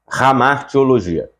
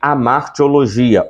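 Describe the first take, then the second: First: The word starts with a throaty R sound. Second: The word starts directly with a vowel sound. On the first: "esse H ele tem um som de um R bem gutural" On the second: "Também é chamado de amartiologia"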